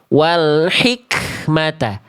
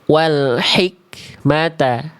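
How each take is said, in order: First: The k has an exaggerated, heavy puff of breath. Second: The k has a light, restrained puff of breath. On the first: The speaker calls it wrong. "tidak yang sampai begini" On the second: The speaker calls it right. "Itu pun nggak berlebihan"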